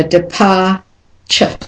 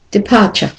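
First: "departure" slowed, ending split off as a weak chuh; slow model, depar... chuh; schwa ending demonstrated. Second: Said in the usual way. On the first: Shown as a demonstration. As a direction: pause before the last syllable of "departure". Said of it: "is always said as a schwa".

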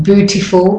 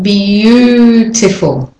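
First: Beautiful said as BOO-tiful; no y glide. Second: Beautiful stretched as b-YOOO-tiful, slow; intrusive y. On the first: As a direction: drop the y from beautiful. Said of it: "It's not beautiful". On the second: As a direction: draw out the y glide in beautiful. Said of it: "It's not beautiful, but beautiful". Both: Shown as a demonstration.

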